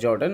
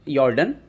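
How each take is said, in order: First: The name begins with a J sound. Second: The name begins with a Y sound. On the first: The speaker calls it wrong. "Actually वो जॉर्डन लिखा रहता है" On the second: The speaker calls it right. "लेकिन उसको यॉर्डन सही प्रोनाउंसिएशन है"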